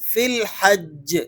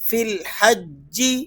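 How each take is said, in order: First: The phrase ends on a bare consonant. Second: The phrase ends with a short vowel. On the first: The reader stops at this word. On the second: The reader continues without stopping.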